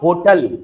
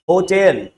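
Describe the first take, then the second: First: The second syllable has a short, reduced vowel. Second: The second syllable has a clear 'e' vowel. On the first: The speaker calls it wrong. "It is not होटल" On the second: The speaker calls it right. "It should be होटेल"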